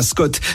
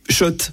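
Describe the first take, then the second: First: The name begins with an 'sk' sound. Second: The name begins with an 'sh' sound. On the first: The speaker calls it wrong. "Et pas Scott, ça fait des années qu'on prononce mal la marque" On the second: The speaker calls it right. "Oui, Shot"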